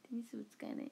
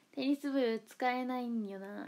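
First: Said in the usual way. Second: Slow, stretched テニス部使えないんよな; lingering, slow deliberation; drawn-out musing. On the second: Pretend. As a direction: drag it out as if mulling it over. Repeats a club gag, drawn out.

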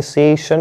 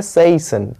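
First: सेशन said straight through without lingering; wrong, run together. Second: सेशन slowly, lingering on the "say"; drawn-out syllable. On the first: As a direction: rush सेशन as one direct word. (सेशन, बिना रुके सीधा) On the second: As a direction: hold the first syllable of सेशन before "shun". (सेशन, "से" को खींचकर) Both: Shown as a demonstration. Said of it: "ये सेशन नहीं बोल देना डायरेक्ट".

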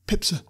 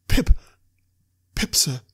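First: High, meek little answer; small, high-pitched boy's voice; frightened boy. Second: Louder first word, then obedient; frightened boy forcing his voice out; speaking up on demand. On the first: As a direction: answer timidly as a scared child. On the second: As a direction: blurt the name out, then settle. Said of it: "Give it mouth". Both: A narrator's reading.

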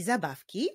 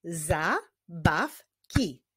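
First: Said in the usual way. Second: "Zabawki" slowly as za, baw, ki; syllable by syllable. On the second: Shown as a demonstration. Teacher clapping with pupils, "Zabawki" in slow separate beats. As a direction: space out the three syllables of "Zabawki". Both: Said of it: "Wyklaszczmy sylaby w tych wyrazach".

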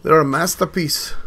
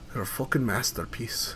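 First: Loud, proud announcement in a put-on voice; loud admiring. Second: Softer, lower, almost to himself; quiet aside. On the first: Gamer admiring vehicles, loud proud declaration. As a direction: show off the creation out loud. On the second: Acted. Gamer admiring vehicles, hushed awed aside.

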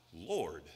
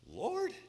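First: Said in the usual way. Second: "Lord?" rising high in puzzlement; questioning repeat. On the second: Acted. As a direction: query the word "Lord?" with a high upward swing.

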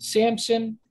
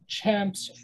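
First: "Samson" with a plain s at the front; s pronunciation. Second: "Chamson" starting with ch as in cheese; ch pronunciation. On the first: Teacher giving the familiar name, s pronunciation. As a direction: say "Samson" starting on s. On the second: Teacher showing the proposed older name, ch pronunciation. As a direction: say "Chamson" with ch replacing the s. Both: Shown as a demonstration. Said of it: "So it's a C H".

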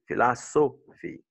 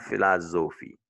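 First: "philosophy" broken up to show a clear S in "so"; emphasized S sound. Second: "philosophy" mispronounced as "philozophy". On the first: Teacher correcting French learners, "philosophy" with a stressed S. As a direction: lean on "so" in "philosophy" with a voiceless S. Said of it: "c'est pas toujours Z en anglais". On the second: Teacher showing the learners' mistake, "philosophy" with a Z. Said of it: "not philosophy". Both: Shown as a demonstration.

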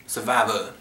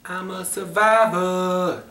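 First: Said in the usual way. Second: Dramatic announcer. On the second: Acted. Announcing the movie title.

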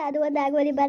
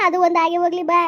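First: Said in the usual way. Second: Raised, higher call to come along; pressing her to come, voice up; loud urging call. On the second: Acted. Husband loudly urges his grieving wife to come along.

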